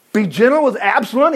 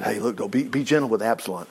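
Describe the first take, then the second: First: Raised, disbelieving question; incredulous echo. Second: Low, soft request; gentle plea. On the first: Acted. Preacher questions David's plea for his son, incredulous echo. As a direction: throw it back in disbelief, higher in pitch. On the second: A narrator's reading. David asks Joab to spare his son, gentle plea. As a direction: plead quietly, well down in pitch.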